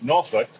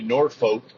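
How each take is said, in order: First: It is said the way Virginia locals say it. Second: It is said the way outsiders say it. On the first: The speaker calls it right. "if you're from Virginia, it's pronounced Norfolk" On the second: The speaker calls it wrong. "they'll say Norfolk, which is absolutely incorrect"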